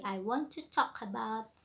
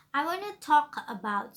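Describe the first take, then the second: First: "want to" as two separate words, in an even voice; formal "want to" without contracting it; formal full form. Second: "wanna" run together as one casual word, higher and louder; slang contraction. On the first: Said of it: "you must say in really formal language". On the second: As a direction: show the slang "wanna" instead of "want to". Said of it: "don't use slang language". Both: Shown as a demonstration.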